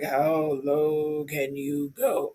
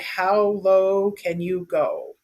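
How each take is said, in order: First: It is said in a very deep voice. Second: It is said in a normal voice.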